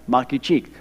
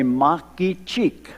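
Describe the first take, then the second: First: Makichik repeated at a normal, quick pace; just say Makichik again, plainly and briskly; Aguaruna word. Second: Makichik said slowly, syllable by syllable, as a demo; Aguaruna word. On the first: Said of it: "That's one". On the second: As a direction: spell out Makichik slowly for the children, ma-ki-chik. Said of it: "I'm gonna show you how to count in the Aguaruna dialect". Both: Shown as a demonstration.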